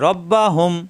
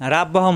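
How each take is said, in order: First: The r is heavy, with a rounded vowel. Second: The r is light, with an open a. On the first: The speaker calls it right. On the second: The speaker calls it wrong.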